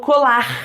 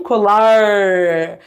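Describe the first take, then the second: First: The r is a breathy sound from the throat. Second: The r is curled back, tongue raised high. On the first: "o R é chamado de glotal" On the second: "A língua bem lá em cima, a gente chama esse movimento de retroflexo"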